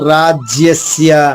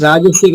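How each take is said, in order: First: The word has a y sound after raj. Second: The word has no y sound after raj. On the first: The speaker calls it right. "కాదు రాజ్యస్య" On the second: The speaker calls it wrong. "రాజస్య కాదు"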